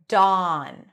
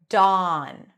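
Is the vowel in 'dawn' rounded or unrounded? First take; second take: unrounded; unrounded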